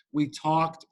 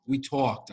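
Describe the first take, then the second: First: Said in the usual way. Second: "talked" with a New York vowel; New York accent. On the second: Shown as a demonstration. Correcting himself for the audience, New York accent. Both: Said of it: "I gotta say, like, New York".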